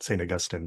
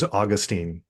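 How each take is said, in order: First: "Augustine" said uh-GUS-tin; common pronunciation. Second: Put-on "Augustine" said AW-gus-teen; "Augustine" with first-syllable stress, long TEEN ending; Lutheran pronunciation. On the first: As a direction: stress GUS in "Augustine" after Saint. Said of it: "Way I feel as well". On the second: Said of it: "being Lutheran, I, I was". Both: Shown as a demonstration.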